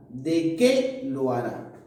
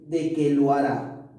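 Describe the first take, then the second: First: Slow the phrase and lean on "qué"; énfasis en QUÉ. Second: Said in the usual way. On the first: Shown as a demonstration. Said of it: "Ese que lleva tilde". ("qué" con acento, alargado, como pregunta) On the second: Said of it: "No, no lleva tilde".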